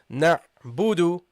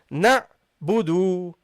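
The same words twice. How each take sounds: First: Both vowels are held for the same length. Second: The second vowel is held longer than the first. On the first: The speaker calls it right. "keep it the same" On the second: The speaker calls it wrong. "The second one is longer. That's a mistake"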